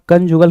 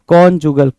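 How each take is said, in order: First: The first syllable has a short 'uh' vowel. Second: The first syllable has a rounded 'o' vowel. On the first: The speaker calls it wrong. "कंजुगल की जगह पे" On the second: The speaker calls it right. "इसको क्या बोलते हैं, कॉन्जुगल"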